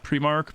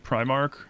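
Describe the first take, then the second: First: It is said the Scottish way. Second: It is said the standard way. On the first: This is how people in Scotland say it. "In Scotland, we say Primark" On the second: This is the actual name. "but it's actually Primark"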